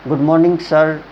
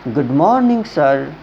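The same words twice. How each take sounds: First: It is said in a dull, sluggish way. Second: It is said in a lively, energetic way.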